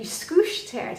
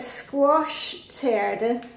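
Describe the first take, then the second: First: The first word sounds like 'skoosh', Danish style. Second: The first word sounds like English 'squash'.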